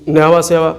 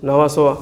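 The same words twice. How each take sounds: First: Nhava सेवा, second word said सेवा with e; Nhava Sheva as सेवा. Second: Nhava सोवा, second word said सोवा with o; Nhava Sheva as सोवा. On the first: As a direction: say सेवा with a long e, then pause. (सेवा वाला उच्चारण: न्हावा सेवा) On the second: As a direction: switch to सोवा with a rounded o. (सोवा वाला उच्चारण: न्हावा सोवा) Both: Shown as a demonstration. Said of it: "सोवा या सेवा".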